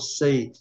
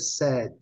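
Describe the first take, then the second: First: The vowel is a long 'ay' like say. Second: The vowel is short, not like say. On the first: The speaker calls it wrong. "noventa e nove por cento dos brasileiros ... falam say, porque eles são induzidos ... pela pronúncia do verbo principal" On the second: The speaker calls it right. "Mas a pronúncia desse aqui é said"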